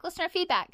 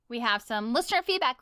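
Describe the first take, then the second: First: Higher, sung-out segment title; segment announcer voice. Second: Said in the usual way. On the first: Acted. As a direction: announce it like a show jingle. Announcing the listener mail segment.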